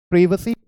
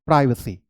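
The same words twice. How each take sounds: First: प्राइवेसी said "PRIV-uh-see"; British pronunciation. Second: प्राइवेसी said "PRY-vuh-see"; American pronunciation. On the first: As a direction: say प्राइवेसी with "priv", not "prive". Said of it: "British English में हम बोलते हैं". (प्राइवेसी को "प्रिवेसी" बोलें) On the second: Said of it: "प्राइवेसी हम". (प्राइवेसी में "प्राइ" की आवाज़) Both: Shown as a demonstration.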